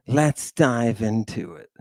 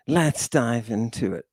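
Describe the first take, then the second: No difference in how they are said.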